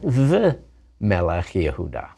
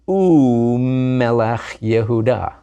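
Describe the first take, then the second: First: The word for 'and' is the consonant 'v'. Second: The word for 'and' is the vowel 'u'. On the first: The speaker calls it wrong. "not the Melech Yehuda" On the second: The speaker calls it right. "it always changes into an u"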